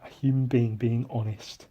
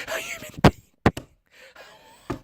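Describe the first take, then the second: First: Said in the usual way. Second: High squeaky laughing repeat. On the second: Real, not acted.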